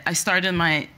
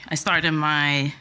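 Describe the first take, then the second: No difference in how they are said.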